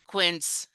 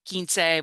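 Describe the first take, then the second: First: It is pronounced with English sounds. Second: It is pronounced with Spanish sounds. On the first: "That's the English pronunciation" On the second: "in Spanish it's"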